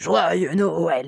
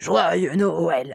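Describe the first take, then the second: First: It is said in a rough growled voice. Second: The same.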